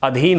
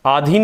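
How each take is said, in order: First: अधीन with a short अ at the start; correct short a. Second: आधीन with a long open आ at the start; wrong long a. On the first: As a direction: clip the first vowel of अधीन. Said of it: "हमारा शब्द क्या होता है?". (अधीन सही, छोटे अ से) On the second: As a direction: stretch the first vowel of आधीन as आ. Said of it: "आधीन नहीं होता शब्द". (आधीन गलत, लंबा आ खींचकर) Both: Shown as a demonstration.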